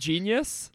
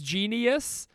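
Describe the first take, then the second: First: The word is said with two syllables. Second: The word is stretched into three syllables. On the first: The speaker calls it right. "instead of genius" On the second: The speaker calls it wrong. "he says genius... it's not a 3-syllable word"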